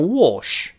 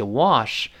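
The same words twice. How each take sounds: First: "wash" in British English, rounded o vowel. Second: "Wash" in American English, open ah vowel. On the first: Teacher shows British reading, "wash" with rounded vowel. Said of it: "英国人读成". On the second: Teacher contrasts accents, American "Wash" with open vowel. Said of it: "美音口型大一些". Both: Shown as a demonstration.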